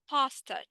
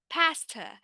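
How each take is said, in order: First: The first vowel is an open 'ah' sound. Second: The first vowel is spread, said smiling. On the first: The speaker calls it wrong. "here we don't say pasta" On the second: The speaker calls it right. "Ah, ah, with a little smile"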